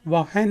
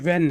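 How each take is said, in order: First: The word is said with an h sound. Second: The word is said without an h sound. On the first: The speaker calls it wrong. "नहीं है" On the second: The speaker calls it right. "एच silent है तो ये व्हेन है"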